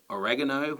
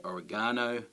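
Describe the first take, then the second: First: "oregano" said o-REG-a-no; American pronunciation. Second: "oregano" said o-re-GAH-no; Australian pronunciation. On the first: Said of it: "In America, they might say". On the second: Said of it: "where we say oregano". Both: Shown as a demonstration.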